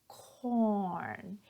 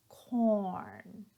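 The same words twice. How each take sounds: Both takes have the same delivery.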